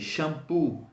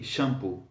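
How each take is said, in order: First: The stress is on the last syllable. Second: The stress is on the first syllable. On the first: The speaker calls it right. "you have to stress the end of the words" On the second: The speaker calls it wrong. "Why don't I say shampoo?"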